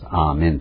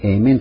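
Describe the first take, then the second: First: The word begins with an 'ah' vowel. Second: The word begins with an 'ay' vowel. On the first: This is the Hebrew pronunciation. "アーメンというヘブライ語なんです" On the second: This is the English pronunciation. "英語でエーメンという発音したりします"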